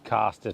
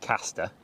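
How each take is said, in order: First: The word is said in a Norfolk accent. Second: The word is said in a Northern accent. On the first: This is the speaker's own home pronunciation. "from the original Norfolk caster" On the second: This is how the Northerners say it. "persuaded by a bunch of Northerners to change"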